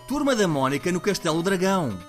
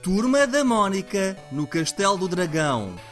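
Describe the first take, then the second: First: It is said fast. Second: It is said slowly.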